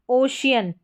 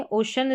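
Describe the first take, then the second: First: "ओशियन" said as o-shi-yan, three syllables; drawn-out "ओशियन" with a clear shi-yan ending; common "ओशियन". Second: "ओशन" said as o-shan, two syllables; clipped "ओशन" with no yan ending; correct "ओशन". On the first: Teacher shows students the common "ओशियन" way, careful demo. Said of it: "जो सही उच्चारण है वो ओशन". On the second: Teacher shows students the correct "ओशन", clear demo. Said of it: "इसको इस तरीके से सही". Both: Shown as a demonstration.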